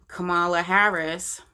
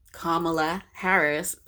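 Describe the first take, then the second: First: Kamala said kuh-MAH-luh; "Kamala" as kuh-MAH-luh Harris; misplaced name stress. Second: Kamala said KAH-muh-luh; "Kamala" carefully as KAH-muh-luh Harris; corrected name stress. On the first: Mispronounces name, then corrects herself. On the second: Corrects her own pronunciation of name. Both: Real, not acted.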